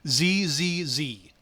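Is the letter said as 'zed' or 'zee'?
zee. The letter is said the American way, 'zee'.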